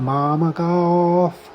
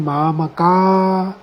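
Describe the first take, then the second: First: The word ends with a soft breathy f. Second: The word ends with no final sound. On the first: "हल्की फौ की धनु निकालें" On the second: "इसको silent कर दीजिए"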